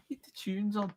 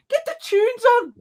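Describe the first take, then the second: First: Higher, much quieter Scouse echo; soft mock Scouse. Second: Very high, loud, stretched Scouse yell; mock Scouse shout. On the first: Retelling the guy at the back, hushed mock Scouse. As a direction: repeat it small in a put-on Liverpool voice. Softer repeat of the Scouse quote. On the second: Guy at the back during police chase, mock Scouse shout. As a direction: imitate a Scouser yelling from the back. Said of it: "one guy at the back going".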